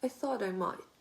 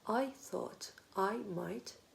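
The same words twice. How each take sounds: First: The unstressed words are light and quick. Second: Every word is said fully and evenly.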